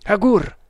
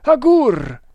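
First: A higher, louder cry of dismay. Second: Loud, high shout for help; urgent call. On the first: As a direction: speak his name in shock. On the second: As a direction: yell for your companion to come. Calling companion in alarm. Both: A narrator's reading.

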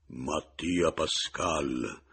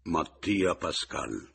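First: Very slow, hollow, booming voice; drawn-out sepulchral announcement; even more cavernous. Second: Slow, loud, hollow announcement; ominous voice, drawn-out syllables; dark, syllable by syllable. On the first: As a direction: sink the voice into a cavern. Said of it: "incavernando ancor più la voce". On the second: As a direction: spell the name out slowly and darkly. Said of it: "con voce cupa, quasi sillabando". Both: A narrator's reading.

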